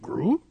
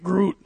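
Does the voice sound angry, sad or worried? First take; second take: worried; angry. First: It is said in a worried voice. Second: It is said in an angry voice.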